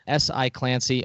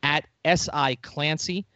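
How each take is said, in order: First: Said in the usual way. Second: Spelling out a handle. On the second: Shown as a demonstration. Host gives the guest's handle to listeners, slowly spelled. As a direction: slowly spell out "S I Clancy", each letter apart. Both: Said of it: "You can find him".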